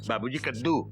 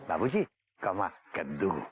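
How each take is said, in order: First: The two words run together without a pause. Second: There is a pause between the two words. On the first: It sounds as if the father himself is the pumpkin. The speaker calls it wrong. "जैसे कि बाबूजी ही कद्दू हैं" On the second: The father is addressed, then the pumpkin is named. The speaker calls it right. "बेटा ऐसे बोल"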